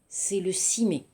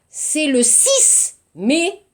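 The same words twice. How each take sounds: First: The final consonant of six is silent. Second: The final consonant of six is pronounced. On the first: The speaker calls it right. "자음, 부드럽게 말하세요" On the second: The speaker calls it wrong.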